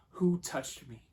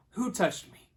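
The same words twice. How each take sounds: First: Said in the usual way. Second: Loud, high repeated question; raised voice, demanding an answer; insistent demand. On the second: Retold or imitated. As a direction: call it out over a crowd. Jesus repeats his question, louder.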